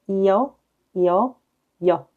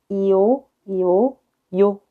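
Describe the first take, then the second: Both takes have the same delivery.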